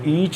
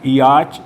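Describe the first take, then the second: First: The vowel is a single long sound. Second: The vowel is split into two sounds. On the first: The speaker calls it right. "इनको ईच और टीच पढ़ते हैं" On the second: The speaker calls it wrong. "नहीं पढ़ेंगे"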